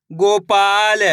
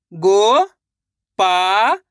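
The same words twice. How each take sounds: First: Said in the usual way. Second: गोपाल in slow separate syllables, rising. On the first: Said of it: "इनको आपस में लाकर पढ़ना है". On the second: Shown as a demonstration. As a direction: sound out गोपाल with a gap after each piece. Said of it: "एक अक्षर का उच्चारण करके". (गोपाल को तोड़-तोड़कर, धीरे)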